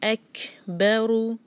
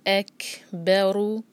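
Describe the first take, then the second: The two takes are said the same way.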